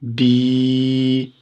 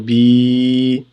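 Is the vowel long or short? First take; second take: long; long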